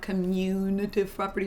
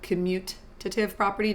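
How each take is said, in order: First: The first word begins like the word commune. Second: The first word begins like the word commute. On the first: The speaker calls it wrong. "not commutative property. You're not doing like communion" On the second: The speaker calls it right. "It's called the commutative property"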